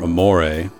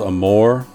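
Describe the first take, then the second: First: The final E is pronounced. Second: The final E is silent.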